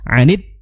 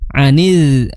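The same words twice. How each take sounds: First: The final consonant is held back firmly. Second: The final consonant lets the sound flow on. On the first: The speaker calls it right. "seharusnya ditahan suaranya ngalir, ya ditahan" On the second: The speaker calls it wrong. "akhirnya malah rokhawah... Maka ini kurang tepat"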